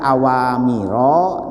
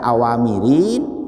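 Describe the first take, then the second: First: The word ends with a plain vowel, no n. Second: The word ends with an added -in sound. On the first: The speaker calls it right. "Kenapa dibaca awamiro?" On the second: The speaker calls it wrong. "tidak dibaca awamirin"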